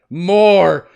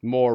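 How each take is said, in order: First: Loud, high acted bellow; indignant shout. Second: Said in the usual way. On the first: Cop losing his mind, indignant shout. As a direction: shout it out in mock outrage. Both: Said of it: "Maybe add more indignation".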